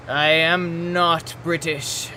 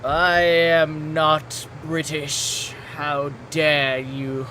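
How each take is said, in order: First: Mock posh British, slow and drawn out; deliberately slow British accent. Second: Slow hammed-up British accent; over the top slow British voice. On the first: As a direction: put on a haughty British voice. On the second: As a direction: draw out a posh British protest. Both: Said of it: "you're doing the voice".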